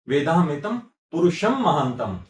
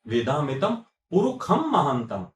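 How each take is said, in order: First: The middle word has a sh sound. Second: The middle word has a kh sound. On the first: This is how it is written. "श जब लिखेंगे" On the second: This is how it is spoken. "तो उसको ख बोलेंगे"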